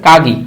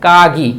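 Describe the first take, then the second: No difference in how they are said.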